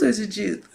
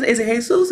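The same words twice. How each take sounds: First: Said in the usual way. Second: Jesus said the Spanish way, "hay-SOOS"; Jesus with an H sound and stressed second syllable; questioned pronunciation. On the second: Acted. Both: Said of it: "How you say, is".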